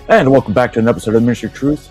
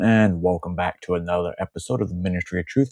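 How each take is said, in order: First: It is said fast. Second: It is said slowly.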